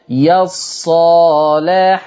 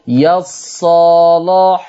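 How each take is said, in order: First: The L sound is light and thin. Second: The L sound is heavy and thick. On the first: "ده انت رققت" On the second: "انت كده غلظ"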